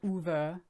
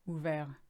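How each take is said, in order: First: It is said with an English-style pronunciation. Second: It is said with a French-style pronunciation. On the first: The speaker calls it wrong. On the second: The speaker calls it right.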